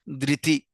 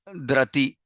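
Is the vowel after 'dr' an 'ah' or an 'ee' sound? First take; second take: ee; ah. First: The vowel after 'dr' sounds like 'ee'. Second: The vowel after 'dr' sounds like 'ah'. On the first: The speaker calls it right. "Whenever R has a dot underneath, it's pronounced as re, like ring" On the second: The speaker calls it wrong. "not drati"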